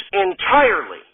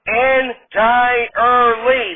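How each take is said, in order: First: Said in the usual way. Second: "Entirely" very slow, en-tie-er-lee; slow, higher "Entirely", every syllable separated; four-syllable entirely. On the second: Acted. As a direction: pull "Entirely" apart into four drawn-out beats. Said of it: "You can hear how it's four syllables".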